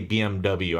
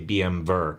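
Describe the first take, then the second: First: The last letter is said as English double-u. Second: The last letter is said as German vay. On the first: "I say B M W" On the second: "I don't say B M Ver"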